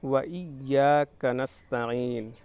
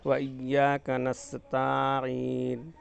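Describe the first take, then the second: First: The vowel after the 't' is short. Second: The vowel after the 't' is long. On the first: The speaker calls it right. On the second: The speaker calls it wrong.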